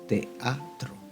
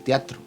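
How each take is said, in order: First: The e and a are in separate syllables. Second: The e and a are joined in one syllable. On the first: The speaker calls it right. "sino que decimos" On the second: The speaker calls it wrong. "No podemos decir"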